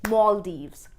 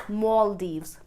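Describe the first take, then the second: No difference in how they are said.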